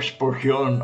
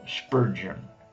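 First: The name is said with Spanish sounds. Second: The name is said with English sounds. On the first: "A veces lo digo Spurgeon" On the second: "que es la pronunciación en inglés"

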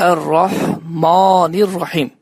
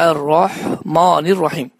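No difference in how they are said.

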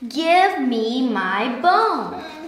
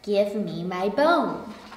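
First: It is said loudest of all. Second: It is said quietly.

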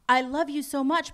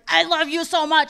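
First: It is said in a gentle, loving tone. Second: It is said in a harsh, aggressive tone.

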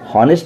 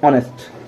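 First: The word starts with an audible h sound. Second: The word starts with a vowel, h silent. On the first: The speaker calls it wrong. "हॉनेस्ट नहीं पढ़ते हैं" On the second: The speaker calls it right. "क्या पढ़ते हैं, ऑनेस्ट"

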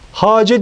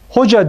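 First: The first vowel is an a sound. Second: The first vowel is an o sound. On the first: This is the original Persian reading of the spelling. "Bu şekilde hace diye okunur" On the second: This is the everyday Turkish pronunciation. "hoca diye telaffuz ediyoruz"

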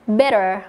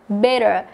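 Both takes have the same delivery.

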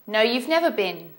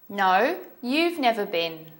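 First: The sentence is said at a fast pace. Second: The sentence is said at a slow pace.

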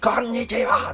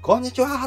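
First: It is said in a flat monotone. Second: It is said with varied, lively intonation.

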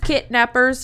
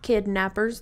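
First: The first syllable ends in a t sound. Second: The first syllable ends in a d sound. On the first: Someone who joins only to get the starter kit. The speaker calls it right. "the term is kidnappers" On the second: Someone who takes children. The speaker calls it wrong. "not kidnappers. They are not taking children"

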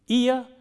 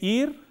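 First: The vowel glides as a diphthong. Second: The vowel is one steady monophthong. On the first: The speaker calls it right. "instead of saying ear" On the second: The speaker calls it wrong. "they say ear"

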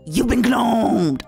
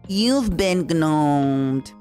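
First: It is said with lively, expressive, bratty intonation. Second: It is said in a flatter, more neutral tone. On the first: The speaker calls it wrong. "without going" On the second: The speaker calls it right. "I just had to be like"

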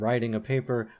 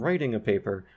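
First: Writing has the same vowel as riding. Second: Writing has a raised vowel, unlike riding. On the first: "They would both be just be pronounced as writing and riding" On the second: "I would say something like"

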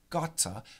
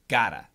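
First: The middle consonant is a crisp, clear T. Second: The middle consonant is a soft D-like flap. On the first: "In the UK, British people might say gotta" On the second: "in America, we use a flap T and we say gotta"

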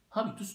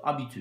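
First: It is pronounced the ordinary Turkish way. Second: It is pronounced the French way.

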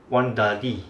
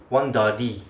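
First: It is spoken with a Singaporean accent. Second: The same.

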